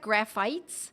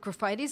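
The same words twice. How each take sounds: First: It is pronounced the way it is spelled. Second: It is pronounced differently from its spelling. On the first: "Looks like graphites" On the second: "but I pronounce it graphites. I believe that's the correct pronunciation"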